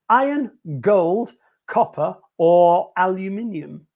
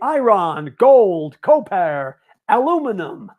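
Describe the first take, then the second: First: It is said in a British accent. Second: It is said in an American accent.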